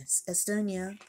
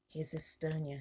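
First: Said in the usual way. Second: Soft whisper so as not to wake the sleeping doll. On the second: Real, not acted. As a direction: breathe the name, unvoiced and hushed. Introducing doll while others sleep.

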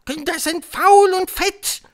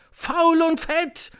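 First: Very high, loud, slow witch screech; screaming Grand High Witch. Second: High, drawn-out crowd echo; shouting audience. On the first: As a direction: scream it out, stretching the words. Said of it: "schrie die Hoch". (schreiende Hexe, gedehnt und schrill) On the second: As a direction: shout it back slowly. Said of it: "schrie das Auditorium". (schreiendes Publikum, hoch und gedehnt) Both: A narrator's reading.

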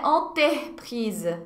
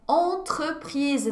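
First: "entreprise" said the wrong way, without the French nasal and R pattern; wrong version. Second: "entreprise" said slowly, nasal "en" and the R between T and E; correct model. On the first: Teacher contrasts a wrong "entreprise" for learners. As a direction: deliberately mispronounce "entreprise". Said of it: "é entreprise". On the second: Teacher warns job applicants and models "entreprise". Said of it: "não é entreprise". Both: Shown as a demonstration.

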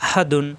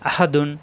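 Both takes have the same delivery.

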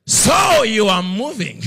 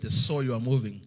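First: Slow, loud and high, weighty as thunder; God's voice booming down from above. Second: Said in the usual way. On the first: Retold or imitated. God confronting the preacher in the car, slow and booming. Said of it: "the Lord says". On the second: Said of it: "it's the way he said".

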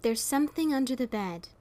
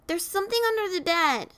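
First: Said in the usual way. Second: Put-on high-pitched child's voice; a small boy alarmed at bedtime; frightened little boy. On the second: A narrator's reading. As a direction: cry out like a worried kid, pitched high. Frightened child calls to father.

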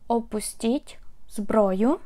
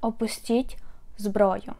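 First: Опустіть зброю said slowly, every syllable spelled out for learners; slow it down so students can copy Опустіть зброю; careful, slowed-down model of Опустіть зброю; slow, clear teaching repeat. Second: Said in the usual way. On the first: Shown as a demonstration. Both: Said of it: "Or you can just say".

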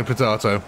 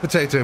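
First: "potato" with an AH in the middle; contrasting pronunciation. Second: "Potato" with an AY in the middle; contrasting pronunciation. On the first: Shrugging off accent differences, "potato" said po-TAH-to. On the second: Shrugging off accent differences, "Potato" said po-TAY-to. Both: Shown as a demonstration. Two pronunciations of one word.

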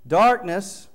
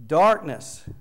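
First: Darkness said loud, higher, falling; emphatic word. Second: Darkness said loud with a falling tune; emphatic word. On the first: Preacher naming the Greek word's meaning, emphatic. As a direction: proclaim Darkness boldly. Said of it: "the noun". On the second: Preacher introducing the word to the congregation, emphatic. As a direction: announce Darkness as the headword. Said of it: "that's a noun". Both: Shown as a demonstration.

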